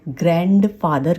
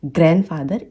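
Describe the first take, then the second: First: ग्रैंडफादर as "gran-D-father"; others' mistake, audible D in ग्रैंडफादर; D pronounced. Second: ग्रैंडफादर as "gran-father"; silent D. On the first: Retold or imitated. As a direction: release the D in ग्रैंडफादर. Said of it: "कहते हैं". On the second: Shown as a demonstration. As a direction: correct ग्रैंडफादर, n straight into f. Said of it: "इस तरीके से बुलाना है".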